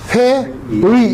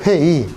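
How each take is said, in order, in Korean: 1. 두 번째 음절은 완전한 'ui'로 발음돼요. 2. 두 번째 음절은 그냥 'i'로 발음돼요.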